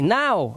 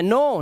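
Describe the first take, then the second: First: The vowel is an 'ow' glide. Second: The vowel is a plain 'oh' sound. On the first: The speaker calls it right. "ओ डब्ल्यू को आउ से पढ़ा जाता है" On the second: The speaker calls it wrong. "नो नहीं"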